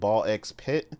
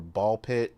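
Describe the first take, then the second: First: The letter X is spoken between the words. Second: The letter X is left out entirely.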